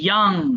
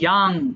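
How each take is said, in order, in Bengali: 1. স্বরধ্বনিটি একটি খোলা 'ah' ধ্বনি। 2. স্বরধ্বনিটি একটি খোলা 'ah' ধ্বনি।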